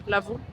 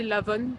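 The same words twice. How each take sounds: First: L'Avon said the French way, ending in a nasal vowel with no n; retry L'Avon with a French nasal ending; second try at the name. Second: L'Avon said the English way, with a clear n at the end and a questioning rise; unsure pronunciation. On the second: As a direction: try l'Avon with a sounded final n, unsure. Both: Real, not acted. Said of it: "Je sais pas comment on dit".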